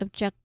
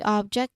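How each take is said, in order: First: The stress is on the second syllable. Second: The stress is on the first syllable. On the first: It names an action. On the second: It names a thing.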